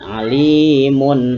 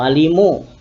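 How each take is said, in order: First: The word ends with a clear n sound. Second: The word ends with a bare vowel. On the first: The speaker calls it right. "Tapi ada bunyi n" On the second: The speaker calls it wrong. "atau alimu"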